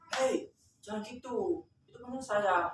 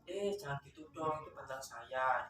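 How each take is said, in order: First: It is said in a harsh, angry tone. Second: It is said in a gentle, soft tone.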